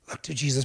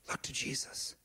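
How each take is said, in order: First: Said in the usual way. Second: Barely audible whisper of Look to Jesus. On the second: Real, not acted. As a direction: breathe it like a secret. Hushed repeat of church motto.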